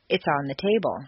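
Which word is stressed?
table. The stress falls on the word table. It simply states where the book is. "Normal intonation"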